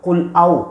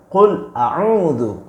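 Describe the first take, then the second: First: The second word is cut short after its first syllable. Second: The second word is said in full with all syllables. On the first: The speaker calls it wrong. "bukan qul au" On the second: The speaker calls it right. "Yang benar itu qul a'udzu"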